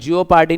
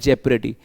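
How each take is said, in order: First: It starts with 'jee-oh' like the spelling. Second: It starts with a short 'jep' sound. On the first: The speaker calls it wrong. "जियो पार्टी नहीं बोलते इसको" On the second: The speaker calls it right. "इसको देखो जेप्रेडी बोलते हैं"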